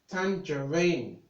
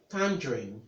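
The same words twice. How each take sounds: First: "tangerine" slowed into three syllables, tan-juh-REEN; slip in pronunciation. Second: "tangerine" in two syllables, TAN-dreen; corrected pronunciation. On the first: Real, not acted. Tutor slipping during the recap, mistaken pronunciation. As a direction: stretch "tangerine" with an extra middle vowel. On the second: Shown as a demonstration. Tutor correcting the slip with sorry, corrected pronunciation. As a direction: say "tangerine" lower, dropping the middle vowel. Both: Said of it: "sorry, tangerine".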